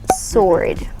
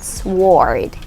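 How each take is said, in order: First: The W sound is left out after the S. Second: The W sound is pronounced after the S. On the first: The speaker calls it right. "it's like you remove the W in it" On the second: The speaker calls it wrong. "it's not sword"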